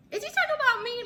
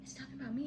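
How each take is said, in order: First: Very high, loud disbelief; astonished question. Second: High but soft; hushed aside. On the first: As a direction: squeal it in amazed disbelief. Acting out her astonished reaction. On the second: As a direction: confide it in amazement to a partner. Telling boyfriend, aside. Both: Retold or imitated.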